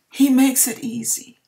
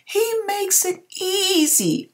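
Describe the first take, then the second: First: Holding back emotion. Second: Voice breaking. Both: Real, not acted. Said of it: "I'm trying not to get emotional".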